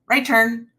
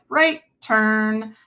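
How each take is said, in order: First: It is said short, sharp and abrupt. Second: It is said slow, smooth and drawn out. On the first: The turn will be sudden and hard. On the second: The turn will be smooth and gradual. "it was going to be a smooth like roll in"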